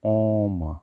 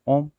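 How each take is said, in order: First: The vowel is drawn out over three beats. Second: The vowel is said short, not drawn out. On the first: The speaker calls it right. "ऐसे करते ओम" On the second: The speaker calls it wrong. "ओम नहीं"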